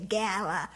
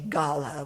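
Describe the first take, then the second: First: The word is said with a non-British pronunciation. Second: The word is said with a British pronunciation. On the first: This is how the speaker's own people say it. "we say gala" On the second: This is how British people say it. "maybe the Brits say gala"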